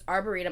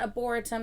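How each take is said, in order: First: It is said with an R after the first vowel. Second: It is said without an R after the first vowel. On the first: The speaker calls it right. "there's an R between the two, so it's arboretum" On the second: The speaker calls it wrong. "It's not arboretum"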